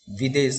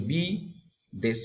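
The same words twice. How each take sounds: First: Said in the usual way. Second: বি, দেশ as two beats with a clear pause between; syllable by syllable. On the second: Shown as a demonstration. Teacher dividing the word for students, বি and দেশ said separately. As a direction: split it into বি ... দেশ. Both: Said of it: "এটাকে যদি এই দল বিশ্লেষণ করি".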